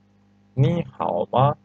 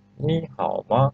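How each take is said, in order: First: Slowly, each syllable clear; teacher modelling the tones slowly; slow model reading. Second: Said in the usual way. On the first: Shown as a demonstration. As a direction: read it slowly for the class to copy. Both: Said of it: "because we have rules".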